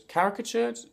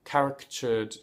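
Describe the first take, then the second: First: Caricatured? asked with a high rising tune; caricatured questioned, pitch jumps up; checking the word. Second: Said in the usual way. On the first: Shown as a demonstration. Unsure of the word, asking caricatured? high and rising.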